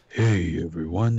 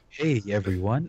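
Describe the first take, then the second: First: It is said in a weaker put-on voice. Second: It is said in an ordinary speaking voice. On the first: "your Batman voice is" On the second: "your normal voice is"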